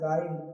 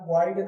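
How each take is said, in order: First: No 'u' sound is said after the g. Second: A 'u' sound is said after the g. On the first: The speaker calls it right. "यहाँ क्या बोलना है" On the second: The speaker calls it wrong. "यहाँ गाइड नहीं बोलना है"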